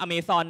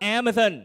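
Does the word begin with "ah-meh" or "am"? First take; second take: ah-meh; am. First: The word begins with the sounds "ah-meh". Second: The word begins with the sound "am". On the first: The speaker calls it wrong. "เราไม่อ่านว่าอเมซอนนะ" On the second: The speaker calls it right. "นี่คือแม่น้ำที่ชื่อว่า"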